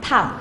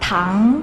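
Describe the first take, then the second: First: It is said with the fourth tone. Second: It is said with the second tone.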